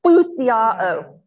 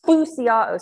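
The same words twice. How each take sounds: First: Phousiao said through puffed cheeks. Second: Phousiao said slowly, loud, falling; Greek word spoken. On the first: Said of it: "So puff your cheeks up". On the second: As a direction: pronounce Phousiao clearly as foo-see-ah-oh. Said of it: "the word in Greek here is". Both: Shown as a demonstration.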